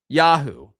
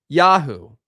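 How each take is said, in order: The two takes are said the same way.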